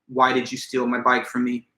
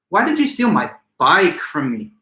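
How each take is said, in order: First: It is flat, with no word stressed. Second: The word bike carries strong emphasis. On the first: It simply asks for information. "in a flat monotone" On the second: Of all things, the bike was what got stolen. "I'm adding all the emphasis to bike"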